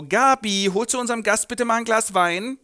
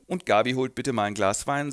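First: Bossy aunt. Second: Said in the usual way. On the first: Acted. Aunt gives an order.

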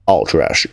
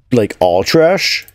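First: All trash. falling, settled; flat confirmation. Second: Rising, incredulous all trash?; doubtful question. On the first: Player accepting the chore, flat falling confirmation. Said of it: "confirms to-do item flatly". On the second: Player reading the to-do list, incredulous rising question. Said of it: "checks to-do item as a question". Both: Acted.

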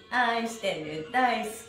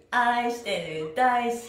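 No difference in how they are said.

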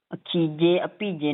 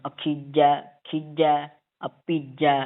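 First: ਅਖੀਜੇ ਅਭੀਜੇ ending in closed "je"; mistaken vowel demo. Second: ਅਖੀਜੈ and ਅਭੀਜੈ ending in open "jai"; "akhijai, abhijai" for ਅਖੀਜੈ, ਅਭੀਜੈ; corrected vowel demo. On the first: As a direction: end ਅਖੀਜੇ on a plain "e". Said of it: "ਨਹੀਂ ਪੜ੍ਹਨਾ". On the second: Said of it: "ਏਦਾਂ". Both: Shown as a demonstration.

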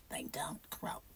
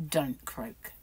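First: Very soft mock croak; croaky voice. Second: Said in the usual way. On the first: Shown as a demonstration. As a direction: creak it out in imitated vocal fry. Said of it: "They got a croaky voice".

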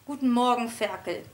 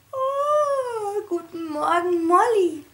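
First: Cool, curt dog greeting; less friendly. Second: High, sleepy, smiling good-morning yawn; yawning happy piglet. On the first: The dog Molly coolly greets the piglet as Ferkel. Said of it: "antwortete Molly etwas weniger freundlich". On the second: Piglet Mona yawns good morning to the dog, smiling. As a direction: stretch the greeting out in a cheerful yawn. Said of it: "gähnte Mona mit einem Lächeln". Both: A narrator's reading.

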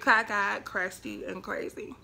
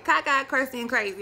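First: Spaced-out title, falling in volume; title announcement. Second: Louder, punchy self-mocking catchphrase; emphatic catchphrase. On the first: Shown as a demonstration. Vlogger proposing a name for this vlog, deliberate. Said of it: "That should be the name of this vlog". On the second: Real, not acted. Vlogger joking about her own looks, emphatic. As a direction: hit each word loudly, with relish.

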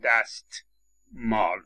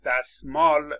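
First: "دستمال" as dast-māl, with a separate t; t fully pronounced. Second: "دستمال" said as dasmāl, with no t; t dropped. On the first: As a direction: release the t in "دستمال" before the m. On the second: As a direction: skip the t in "دستمال", s straight into m. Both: Shown as a demonstration.

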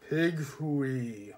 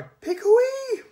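First: Flat heavy voice. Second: Much higher, loud crying call; high shout. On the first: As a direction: say "Pig hooey" heavy and flat. Figure repeats flatly. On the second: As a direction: yell it high and cracked. Sacks suggest loudly. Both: Acted.

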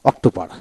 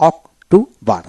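First: Said in the usual way. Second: October broken as অক-টো-বর, a gap after each part; teacher's split-up অক-টো-বর; syllable by syllable. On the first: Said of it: "এইভাবে". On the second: Shown as a demonstration. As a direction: read October in three separate syllables. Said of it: "উচ্চারণ কিভাবে পড়বেন".

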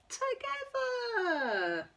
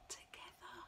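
First: High, slow, tender stretch; drawn-out together. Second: Breathy near-silent "Together."; whispered together. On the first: Tender story ending. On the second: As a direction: whisper "Together." barely audible. Repeats ending word softly. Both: Acted.

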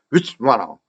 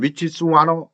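First: "위치 와너" squeezed short and quick; compressed native way. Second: "위치스 와너" with every syllable sounded out; Korean learner's way. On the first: Teacher corrects learners, "위치 와너" quick and reduced. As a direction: shrink which is in "위치 와너". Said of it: "그 속도로". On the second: Teacher mimics Korean learners, "위치스 와너" syllable by syllable. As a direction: spell out which is in full in "위치스 와너". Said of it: "우리처럼 위치스 와너 이러면". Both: Shown as a demonstration.

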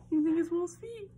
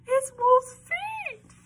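First: Put-on high-pitched "You think it's Wolf's feet?" put to children; wondering question. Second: High, loud, drawn-out squeal; excited mock alarm. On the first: Reader asks children whether "Wolf's feet" is right, high wondering question. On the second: Reader pretends to children she has found Wolf's feet, excited squeal. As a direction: cry out slowly, far higher and louder. Feigned discovery in the book.

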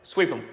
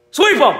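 First: Said in the usual way. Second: Loud, high yell of sweep 'em; fan shout. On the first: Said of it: "Sweep 'em!". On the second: Real, not acted. Fan yelling at his team to sweep rivals, loud shout. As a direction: bellow it like a rallying cry. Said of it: "Sweep 'em".

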